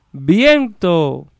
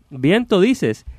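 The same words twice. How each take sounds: First: High, long-held word; echo. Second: High, quicker acted retort; puzzled carter. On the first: Acted. Echo returning the carter's last word, drawn out. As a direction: stretch it out like a far-off echo. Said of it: "el eco es todo". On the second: Carter questioning what the hidden voice said, incredulous. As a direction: repeat the word back in disbelief.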